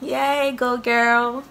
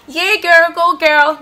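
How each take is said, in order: First: It sounds flat and insincerely happy. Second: It sounds genuinely happy and excited.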